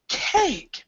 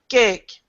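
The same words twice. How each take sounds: First: The vowel is said more open with movement. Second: The vowel is said more closed and flat. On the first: The speaker calls it right. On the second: The speaker calls it wrong. "not cake"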